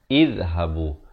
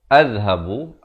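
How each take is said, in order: First: The word begins with an i vowel. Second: The word begins with an a vowel. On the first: The speaker calls it right. "yang betulnya ialah izhabu" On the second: The speaker calls it wrong. "pilih A, jawapan adalah sah, salah"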